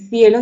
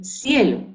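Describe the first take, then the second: First: The first sound is a lisped 'th' sound. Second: The first sound is a hissing 's' sound. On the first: "en vez de decir cielo" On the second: "dice cielo"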